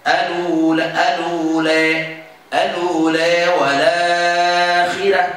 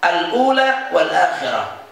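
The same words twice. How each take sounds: First: Slow chanted "al-ula" as a-luu-la, hamzah dropped; joined recitation. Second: Said in the usual way. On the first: Shown as a demonstration. Teacher answers how to read it, level chanted recitation. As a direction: link l into the long vowels of "al-ula wal akhirah". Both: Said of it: "Jadi gimana bacanya?".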